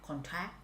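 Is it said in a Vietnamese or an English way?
Vietnamese. It is said the Vietnamese way.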